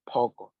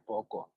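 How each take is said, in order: First: The word is said forcefully, with energy. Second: The word is said flatly, without energy. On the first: The speaker calls it right. "you say it with energy" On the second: The speaker calls it wrong. "You are not supposed to say poko"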